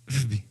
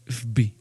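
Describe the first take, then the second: No difference in how they are said.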